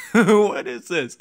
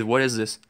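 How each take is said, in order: First: Slow, stretched put-on voice; mock disbelief. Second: Said in the usual way. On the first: Gamer repeats the question, slow mock bafflement. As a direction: draw it out like a baffled cartoon.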